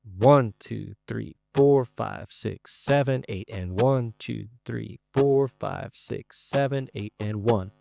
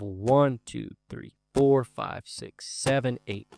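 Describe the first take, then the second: First: Rhythmic accented count; stress on one, four, seven. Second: Accented count on one, four, seven; stress on one, four, seven. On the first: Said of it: "so that would sound like this". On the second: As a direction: hit one, four and seven hard, let the rest drop away. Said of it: "we want to emphasize beat one, four, and seven". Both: Shown as a demonstration.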